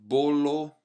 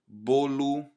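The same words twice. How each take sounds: First: The word ends with a full o sound. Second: The word ends with a u sound. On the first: The speaker calls it wrong. "Instead of bolo" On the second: The speaker calls it right. "you want this U sound at the end"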